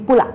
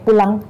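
First: The word ends without any nasal sound. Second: The word ends with a nasal ng sound. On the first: The speaker calls it wrong. "jadi pula. Emnya nggak ada" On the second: The speaker calls it right. "misalnya pulang"

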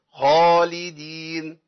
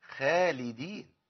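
First: The kh sound is heavy and full. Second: The kh sound is thin and weak. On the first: The speaker calls it right. "محتاج إن أنا إيه؟ أفخمه، أقول إيه؟" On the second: The speaker calls it wrong. "لو قلت خالدين يبقى أنا خليت الخاء ضعيفة"

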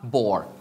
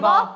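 First: The word ends with a slight r sound. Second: The word ends without any r sound. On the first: The speaker calls it right. "มี r นิดเดียว" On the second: The speaker calls it wrong. "บอมีบออย่างเงี้ยมั้ย"

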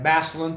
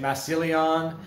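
First: The name is pronounced the way locals say it. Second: The name is pronounced the way outsiders say it. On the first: This is how people from the area say it. "We have Massillon" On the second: This is how people from elsewhere say it. "people say Massillon"

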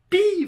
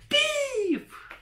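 First: It is said in a normal voice. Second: It is said in a shrill, clownish voice.

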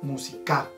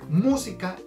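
First: The stress is on the third syllable. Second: The stress is on the first syllable. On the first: "si cambiáramos el acento para el ka, sonaría música" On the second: "el acento va en la mu"

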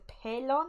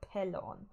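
First: The middle consonant sounds like a Y. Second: The middle consonant sounds like an L.

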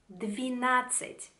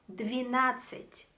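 First: The vowel after 'dv' is an 'i' sound. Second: The same.

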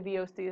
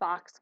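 First: It is spelled out as separate letters. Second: It is said as one word rhyming with NOx. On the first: "I don't say VOCs" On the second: "I say VOX because it kind of rhymes"

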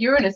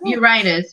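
First: The ending does not sound like 'anus'. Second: The ending sounds like the word 'anus'.

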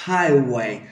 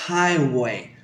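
The two takes are said the same way.

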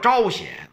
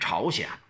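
First: It uses the original pronunciation of the name. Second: It uses the everyday pronunciation of the name. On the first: This is how the name should properly be said. The speaker calls it right. "实际上应该叫朝鲜" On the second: This is the later misreading people now use. The speaker calls it wrong. "后来念白了，咱们就念朝鲜"

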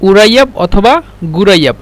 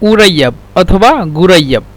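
Both takes have the same delivery.

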